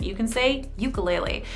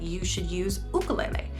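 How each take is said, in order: First: The word is given its Americanized pronunciation. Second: The word is given its traditional pronunciation. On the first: "If you're using the Americanized version" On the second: "If you want to use the pronunciation more traditionally"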